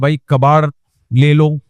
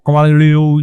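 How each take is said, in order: First: It is said plainly and calmly. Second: It is said in a twisted hawker's call.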